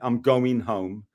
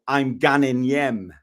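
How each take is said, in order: First: It is said in his neutral everyday accent. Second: It is said in a broad Newcastle accent.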